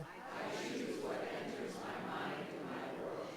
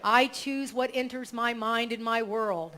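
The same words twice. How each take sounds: First: Faint slow congregation repeat; distant group recitation; group echo. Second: Affirmation read. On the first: Real, not acted. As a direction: murmur it back together. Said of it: "you can repeat it together". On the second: Shown as a demonstration. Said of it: "So I'll say it".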